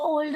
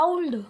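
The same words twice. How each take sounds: First: ओल्ड with a single plain o; short simple o in ओल्ड; common mispronunciation. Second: ओल्ड as a-uld, gliding from a to u; slow, careful ओल्ड with an au diphthong; correct pronunciation demo. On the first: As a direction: say ओल्ड with no diphthong. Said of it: "लेकिन इसको ओल्ड नहीं बोलते". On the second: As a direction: open ओल्ड wide and glide into oo before ld. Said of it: "इसको बोलते हैं ओल्ड". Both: Shown as a demonstration.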